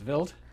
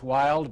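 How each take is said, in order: First: The word begins with a V sound. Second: The word begins with an English W sound. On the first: This is how German speakers say the name. "but in German it's wild" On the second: This is how English speakers say the name. "we would say in English wild"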